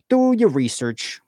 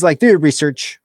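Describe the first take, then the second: First: "Do your research" drawn out slowly, pitched higher; slow emphatic repeat. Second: Said in the usual way. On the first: Real, not acted.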